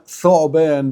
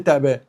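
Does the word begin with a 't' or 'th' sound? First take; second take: th; t. First: The word begins with a 'th' sound. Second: The word begins with a 't' sound. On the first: "بالث" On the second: "هنقول عليه تعبان"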